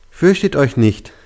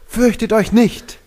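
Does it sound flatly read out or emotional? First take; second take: read out; emotional. First: It sounds flatly read out, with little emotion. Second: It sounds natural, with more emotion.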